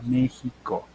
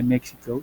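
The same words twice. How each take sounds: First: The word is said with a native Spanish pronunciation. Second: The word is said with an English-style pronunciation. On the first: The speaker calls it right. "sino se pronuncia México" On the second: The speaker calls it wrong. "no se dice México"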